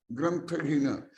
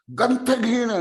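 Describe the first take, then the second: First: Said in the usual way. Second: ग्रंथहीन said high and loud, each syllable pressed; emphatic word. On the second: Shown as a demonstration. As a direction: punch ग्रंथहीन upward with force. (ग्रंथहीन पर ज़ोर, ऊँचे स्वर में)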